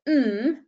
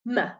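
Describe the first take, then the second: First: The consonant is held alone with no vowel. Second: The consonant is followed by a short 'uh' vowel. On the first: The speaker calls it right. "We pronounce them without the uh on the end" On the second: The speaker calls it wrong. "not m"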